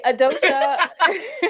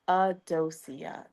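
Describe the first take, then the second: First: The name ends with a 'sha' sound. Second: The name ends with a 'see-ah' sound. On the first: "There's some people say Sha" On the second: "It's Adosia. Just say it like it flows out easily"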